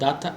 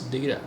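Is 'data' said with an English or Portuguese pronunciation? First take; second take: Portuguese; English. First: The word is said with a Portuguese pronunciation. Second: The word is said with an English pronunciation. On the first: The speaker calls it wrong. "data is in Portuguese" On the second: The speaker calls it right. "it's data in English"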